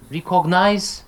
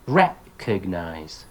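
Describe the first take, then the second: First: "recognize" as ree-COG-nize, high; wrongly stressed "recognize", first vowel ee; mispronounced stress. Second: Slow "recognize" as REC-og-nize; syllable by syllable "recognize", first one stressed; correct syllable stress. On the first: Teacher quoting a common error, misplaced stress. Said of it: "commonly mispronounced". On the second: Teacher correcting a common error, first-syllable stress. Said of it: "teach them the correct pronunciation". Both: Shown as a demonstration.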